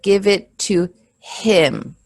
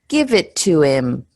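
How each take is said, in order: First: The H at the start of 'him' is pronounced. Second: The H at the start of 'him' is dropped. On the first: The speaker calls it wrong. "instead of" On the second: The speaker calls it right. "So we'll say"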